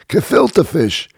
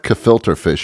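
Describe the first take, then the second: First: The first word ends with a plain 'uh'. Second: The first word ends with an r-colored 'er'. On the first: The speaker calls it right. "It's kefilta fish. You have to say it right" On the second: The speaker calls it wrong. "It's not kefilter fish"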